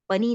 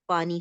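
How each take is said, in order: First: The first vowel is said short. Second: The first vowel is said long. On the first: The speaker calls it wrong. "पनी नहीं होता" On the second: The speaker calls it right. "पानी होता है"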